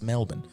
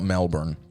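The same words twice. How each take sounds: First: It is said with an Australian accent. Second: It is said with an American accent. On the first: This is how locals say the city's name. The speaker calls it right. "it's Melbourne" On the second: This is how outsiders say the city's name. The speaker calls it wrong. "Americans should not say Melbourne... we always correct them. Be like, it's not Melbourne"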